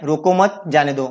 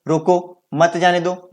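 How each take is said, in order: First: रोको मत as one group, जाने दो set apart; pause after मत. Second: Slow reading, रोको set apart from मत जाने दो; pause after रोको. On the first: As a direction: join मत to रोको, then break before जाने दो. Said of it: "कोई जा रहा है तो उसको रोकना नहीं". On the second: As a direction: break right after रोको, then join मत to जाने दो. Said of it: "मतलब किसी को रोकने के लिए कहा गया है". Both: Shown as a demonstration.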